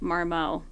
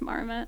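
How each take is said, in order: First: It is said in a fancy, European-sounding way. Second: It is said in a plain English way. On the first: The brand was assumed to be fancy and foreign. The speaker calls it wrong. "I pronounced it Marmo, which was embarrassing" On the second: The brand is just named after the animal. The speaker calls it right. "no, it's just Marmot"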